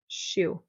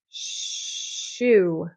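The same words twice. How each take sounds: First: The sh sound is quick and short. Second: The sh sound is held out long.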